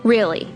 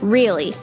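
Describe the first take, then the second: No difference in how they are said.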